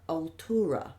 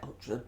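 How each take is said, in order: First: The word is said with three syllables. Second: The word is said with two syllables.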